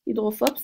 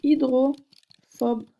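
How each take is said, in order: First: Said in the usual way. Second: Hydrophobe drawn out syllable by syllable, slow and louder; slow stressed hydrophobe. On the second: Shown as a demonstration. Teacher presenting the new word to students, slow and stressed. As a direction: spell out hydrophobe slowly for the class, each syllable clear. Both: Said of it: "ça fait".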